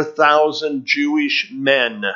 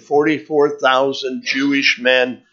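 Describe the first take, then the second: First: Slow, with Jewish and men each pressed down hard; stress on Jewish and men. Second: Said in the usual way. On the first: Shown as a demonstration. Preacher stressing to his congregation who the thousands are, slow emphatic stress. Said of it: "I emphasize the word Jewish, and I emphasize the word men". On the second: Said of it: "I emphasize the word Jewish".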